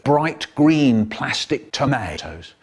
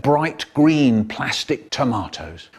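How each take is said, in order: First: "tomatoes" with a long AY in the middle; slowly, "tomatoes" as tuh-MAY-toes; American tomato. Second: "tomatoes" with a long AH in the middle; British tomato. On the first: Correcting the babysitter description, "tomatoes" said slowly tuh-MAY-toes. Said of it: "Well, actually". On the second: Describing the babysitter, "tomatoes" said tuh-MAH-toes. First take, then corrected. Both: Shown as a demonstration.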